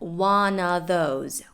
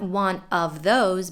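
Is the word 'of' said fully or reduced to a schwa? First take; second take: reduced; full. First: The word 'of' is reduced to a schwa. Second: The word 'of' is said in full. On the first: The speaker calls it right. "The word of often gets reduced to the schwa" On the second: The speaker calls it wrong. "Not one of those"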